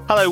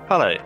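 First: The voice is lively and full of energy. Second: The voice is flat and low in energy. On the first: "Put some oomph into that" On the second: "You couldn't sound more bored"

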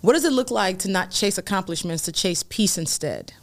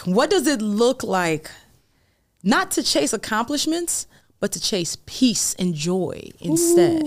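First: It is said at a normal speed. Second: It is said slowly and deliberately.

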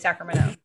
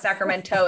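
First: The T sound is dropped. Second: The T sound is clearly pronounced. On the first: The speaker calls it right. "You don't say the T" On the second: The speaker calls it wrong. "It's not Sacramento"

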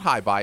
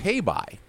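First: The first syllable sounds like 'hi'. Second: The first syllable sounds like 'hey'. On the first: The speaker calls it wrong. "it's not hi bye" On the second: The speaker calls it right. "it's hey bye is the name of the creature"

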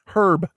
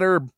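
First: It is said in a British accent, h sounded. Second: It is said in an American accent, h silent.

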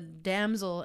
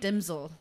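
First: The first vowel sounds like 'a' in cat. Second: The first vowel sounds like 'i' in sit. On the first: The speaker calls it right. "It was like a damsel in distress" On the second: The speaker calls it wrong. "But I said dimsel"

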